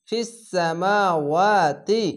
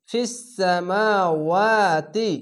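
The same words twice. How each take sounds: First: ফিস সামাওয়াতি slow, long মা; recited tajweed phrase. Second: ফিস সামাওয়াতি chanted very slowly, মা stretched; recited tajweed phrase. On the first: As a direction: chant ফিস সামাওয়াতি slowly. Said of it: "reads phrase after spelling it". (ফিস সামাওয়াতি টেনে পড়া) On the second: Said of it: "খাড় জবর এক আলিফ টেনে পড়বেন". (ফিস সামাওয়াতি ধীরে, মা টেনে) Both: Shown as a demonstration.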